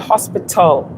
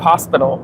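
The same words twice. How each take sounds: First: The T is clearly and fully pronounced. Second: The T is softened and barely heard. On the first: Local listeners will understand it. The speaker calls it right. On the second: Local listeners may not understand it. The speaker calls it wrong.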